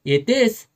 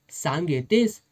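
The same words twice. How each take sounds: First: Loud, much higher rising shout; shouted question. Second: Said in the usual way. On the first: A narrator's reading. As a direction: yell the demand at her. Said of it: "साहेब ओरडला". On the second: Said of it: "साहेबाचा आवाज चढला".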